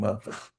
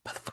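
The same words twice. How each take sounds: First: The word is said at normal volume. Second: The word is whispered softly. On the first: It is a proper way to curse at someone. The speaker calls it right. "you curse at me at a regular volume" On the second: It sounds creepy. The speaker calls it wrong. "That's sound creepy"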